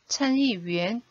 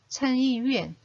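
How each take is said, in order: First: The last syllable has a rising tone. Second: The last syllable has a falling tone. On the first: It means a member of the upper house. "이성으로 읽으면 상원 의원이 되고요" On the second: It means the upper house itself. "마땅히 사성으로 읽어야 됩니다"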